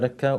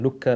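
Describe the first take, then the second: First: The first vowel sounds like 'eh'. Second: The first vowel sounds like 'oo'. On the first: "Some people pronounce it as Lekka" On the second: "was also referred to as Lukka"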